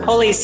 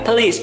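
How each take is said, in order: First: The first syllable has a full 'oh' vowel. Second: The first vowel is reduced, almost dropped. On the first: The speaker calls it wrong. "bukan police ya" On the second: The speaker calls it right. "Yang benar adalah please"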